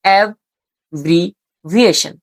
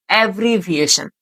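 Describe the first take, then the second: First: Slow "অ্যাব্রিভিয়েশন" broken into three, ab, bri, viation; teacher's slow syllable breakdown of "অ্যাব্রিভিয়েশন"; split into syllables. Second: Said in the usual way. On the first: Shown as a demonstration. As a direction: say "অ্যাব্রিভিয়েশন" as three separate chunks with clear pauses. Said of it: "এই শব্দটাকে যদি তুমি ভাঙো". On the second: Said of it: "এমনভাবে যদি তুমি spelling পড়ো".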